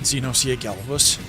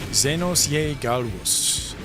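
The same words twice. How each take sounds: First: The name is pronounced in an anglicized way. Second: The name is pronounced in a Latin-style way. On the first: The speaker calls it wrong. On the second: The speaker calls it right.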